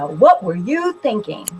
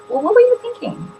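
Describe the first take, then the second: First: It sounds angry and accusing. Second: It sounds open and genuinely curious.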